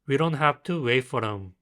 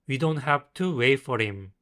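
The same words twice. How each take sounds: First: The words run together and the h is dropped. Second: The words are said separately with the h sounded.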